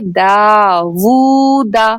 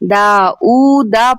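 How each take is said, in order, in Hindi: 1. बीच का अक्षर 'w' ध्वनि से शुरू होता है। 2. बीच का अक्षर सादा 'oo' ध्वनि है। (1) "जबकि ये लफ्ज है दावूदा" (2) "यहाँ पर अक्सर लोग गलती करते हैं"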